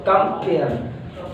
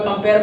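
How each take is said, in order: First: compare broken slowly into कं and pair; two separate beats in compare; split in two. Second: Said in the usual way. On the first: Shown as a demonstration. Teacher showing syllables to students, compare split in two. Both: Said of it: "दोबारा बोलेगा ये compare".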